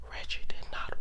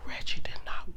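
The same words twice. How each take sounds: The two takes are said the same way.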